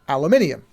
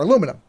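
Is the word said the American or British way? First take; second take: British; American. First: It is said with five syllables, ending -inium. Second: It is said with four syllables, ending -inum.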